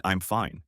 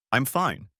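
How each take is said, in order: First: Said in the usual way. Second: "fine" falling with a pointed edge; sarcastic tone. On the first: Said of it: "It doesn't mean". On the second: Shown as a demonstration. Explaining what a woman means by it, a pointed "I'm fine". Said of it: "in that tone of voice".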